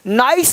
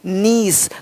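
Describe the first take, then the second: First: The vowel sounds like 'eye'. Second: The vowel sounds like 'ee'. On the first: The speaker calls it wrong. "नाइस नहीं" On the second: The speaker calls it right.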